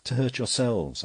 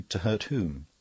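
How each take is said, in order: First: "hurt" stressed, raised higher and louder; the priest raises his voice on "hurt"; emphatic answer. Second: Sharp, with weight on "hurt" said clearly; the captain snaps back his question, "hurt" stressed. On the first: The priest warns both men, "hurt" pressed higher and louder. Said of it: "answered the priest". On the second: Cutler challenges the priest, sharp with "hurt" stressed. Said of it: "Cutler said sharply". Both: A narrator's reading.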